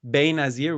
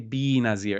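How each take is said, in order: First: The first vowel is a short, open e. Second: The first vowel is a long, dragged ee. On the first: "Instead of bay nazir" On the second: "we say bi nazir"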